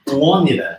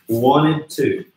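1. A palavra "to" é reduzida a um som de "a". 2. A palavra "to" é pronunciada completa. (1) "transformar num sonzinho como a" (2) "a gente pronuncia aqui wanted, wanted to"

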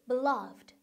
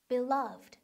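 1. 강세는 두 번째 음절에 있어요. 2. 강세는 두 번째 음절에 있어요.

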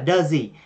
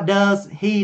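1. Hai từ được nói nhanh, dính liền vào nhau. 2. Hai từ được nói riêng và đầy đủ.

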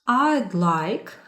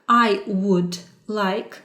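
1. Слова 'I would' скорочуються до 'I'd'. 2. Слова 'I would' вимовляються повністю. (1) "I'd – це скорочена форма" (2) "це якщо повна форма"

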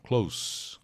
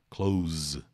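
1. A consoante final é um S sibilante. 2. A consoante final é um Z vibrado. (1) "som de S. Quando for o adjetivo próximo" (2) "O verbo fechar é som de Z"

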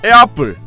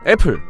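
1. 'apple'은 과장된 미국식 모음으로 발음돼요. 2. 'apple'은 한국식으로 평평하게 발음돼요. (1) "오바마도 속일 만큼의 그런 발음이었다" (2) "이렇게 읽으면 안 돼요"

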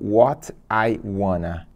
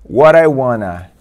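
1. O T é pronunciado com clareza. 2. O T é um flap rápido. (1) "e não" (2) "É assim que você vai ouvir"

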